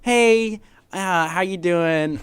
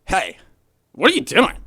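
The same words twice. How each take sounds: First: Easygoing friendly greeting. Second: Louder, sharp demanding question; confrontational challenge. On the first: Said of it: "one is like". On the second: Roommate demoing a hostile greeting, loud and confrontational. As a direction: call him out loudly. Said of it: "it's like". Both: Shown as a demonstration.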